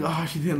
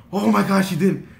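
First: Higher-pitched, disappointed sigh of words; let-down. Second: Loud, high exclamation of relief; huge relief. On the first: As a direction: sound a little crushed, less forceful. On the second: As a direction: let the relief burst out. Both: Retold or imitated. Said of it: "the most relieved yet the most sad".

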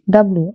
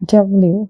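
First: "ডাব্লিউ" the common way, like dab-lu; mispronounced W. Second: "ডাব্লিউ" as dab-liu, with a clear yu glide; correct W. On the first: Teacher quoting how we usually say it, everyday W. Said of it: "আমরা ডাব্লিউ বলে থাকি". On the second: Teacher giving learners the right pronunciation, careful W. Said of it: "আসলে এর সঠিক উচ্চারণ হচ্ছে". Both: Shown as a demonstration.

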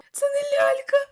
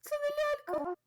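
First: High, loud, crying-out panic; panicked cry. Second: High, hushed disbelief at the creepy doll; breathless high murmur of horror; stunned dread. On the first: Streamer shouting to the chat in high panic, crying out. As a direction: shriek it as the horror sinks in. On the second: Streamer realizing to the viewers it is no doll, high and hushed. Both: Real, not acted. Horror game shock moment.

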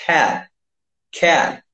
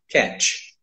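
First: Cat with the mouth open wide, open vowel; correct cat. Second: Cat said the usual Brazilian way; cat with a closed vowel and tch ending; common wrong cat. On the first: Teacher modelling cat with the mouth opened wider. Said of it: "Você vai abrir mais a boca". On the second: Teacher showing the wrong cat. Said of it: "Só que não é". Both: Shown as a demonstration.

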